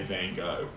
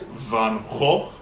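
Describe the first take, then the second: First: The name is said in an American way. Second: The name is said in a Belgian way.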